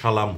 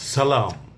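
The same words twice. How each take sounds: First: The word begins with an sh sound. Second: The word begins with a plain s sound. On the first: The speaker calls it wrong. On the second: The speaker calls it right.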